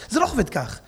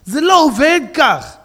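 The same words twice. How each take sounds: First: Said in the usual way. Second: "זה לא עובד כך" slow and loud, with the weight on "לא"; emphatic repeat. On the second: Shown as a demonstration. Rabbi insisting to the congregation, slow loud emphatic repeat. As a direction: hammer "לא" in "זה לא עובד כך" slowly and loudly. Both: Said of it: "repeats phrase twice, second louder".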